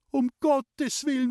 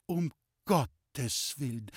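First: Very high, slow alarmed cry; panicked scream. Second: Very slow, halting words of shock; faint dismay. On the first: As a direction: scream it out as the frightened mother. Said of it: "hat meine Mutter geschrien". (entsetzt aufgeschrien, hoch und gedehnt) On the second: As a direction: say it weakly, as if about to faint. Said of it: "es ist ihr schwach geworden". (schwach vor Schreck, ganz langsam) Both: A narrator's reading.

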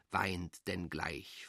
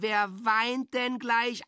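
First: Low sorrowful murmur. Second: Put-on high, slow, sing-song baby talk; mock coaxing a child. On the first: Acted. A lonely voice murmuring low to itself. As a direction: sink low and soft, slowing right down. Dark murmured echo of crying. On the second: An adult mockingly soothing a child about to cry, high and slow. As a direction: coo it much higher, slowly, like to a toddler.

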